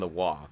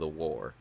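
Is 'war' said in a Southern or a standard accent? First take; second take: Southern; standard. First: War is said in a Southern accent, without r. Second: War is said in a standard accent, with r. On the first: "Southern accent fights in the wah" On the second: "as opposed to the war"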